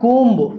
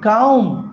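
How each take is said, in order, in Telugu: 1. ఈ పదం b శబ్దంతో ముగుస్తుంది. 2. ఈ పదం b శబ్దంతో ముగియదు.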